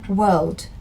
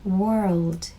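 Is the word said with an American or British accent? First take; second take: British; American. First: It is said in a British accent without R. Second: It is said in an American accent with R. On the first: "이게 지금 제가 한 건 영국식인데" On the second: "미국식으로 하면은 R 발음을 또 살려서"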